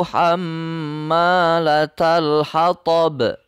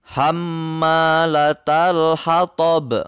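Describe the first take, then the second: Both takes have the same delivery.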